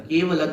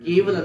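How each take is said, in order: No difference in how they are said.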